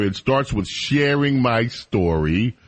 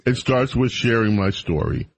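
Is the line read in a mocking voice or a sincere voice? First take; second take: mocking; sincere. First: It is read in a put-on, mocking voice. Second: It is read in a plainer, more sincere voice. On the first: The speaker is making fun of the writer. "The only reason to do that voice is to mock her" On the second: The speaker is trying not to make fun of the writer. "I'm sorry. I take it back"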